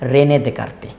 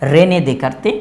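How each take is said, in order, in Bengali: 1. উপাধির s ধ্বনিগুলো নীরব। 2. উপাধির s ধ্বনিগুলো নীরব।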